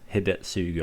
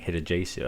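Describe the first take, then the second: First: The middle consonant sounds like 'ts'. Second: The middle consonant sounds like 'j'. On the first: The speaker calls it right. "the correct pronunciation for this Hidetsugu" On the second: The speaker calls it wrong. "I was saying Hidejesu"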